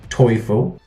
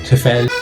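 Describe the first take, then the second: First: The name is said with the German vowel. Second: The name is said with an anglicized vowel. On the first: The speaker calls it right. "it's pronounced Teufel in German" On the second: The speaker calls it wrong. "I've heard people call it uh, Turfel or Tufel"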